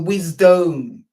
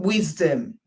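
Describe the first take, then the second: First: The second syllable is a full, long "dome". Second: The second syllable is a short, weak "dum".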